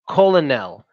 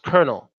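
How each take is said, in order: First: It is said as spelled, with no R sound. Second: It is said like kernel, with an R sound. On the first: The speaker calls it wrong. "it looks like it says colonel" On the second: The speaker calls it right. "but it's pronounced colonel"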